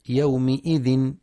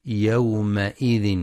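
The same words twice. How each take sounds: First: يومئذ said with an i on the meem, shown as a mistake; wrong kasra reading. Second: يومئذ said slowly with an open a on the meem; correct fatha on meem. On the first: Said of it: "فلا يقرأ يومئذ بالكسر". (يومِئذ بالكسر خطأً) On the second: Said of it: "لفتح الميم في". (يومَئذ بفتح الميم ببطء) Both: Shown as a demonstration.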